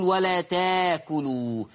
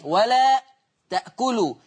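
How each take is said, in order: First: "ولا تاكلوا" slow, the hamza turned into a long a; Warsh reading without hamza. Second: "ولا تأكلوا" with the glottal stop kept in تأكلوا; Hafs reading with hamza. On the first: Quran teacher showing students Warsh's reading, slowly. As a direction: draw out تاكلوا with a long open a, no glottal stop. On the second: Quran teacher reading the word the Hafs way, hamza kept. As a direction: say تأكلوا with a clear hamza before the k. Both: Shown as a demonstration. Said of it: "عشان كده ورش يقول".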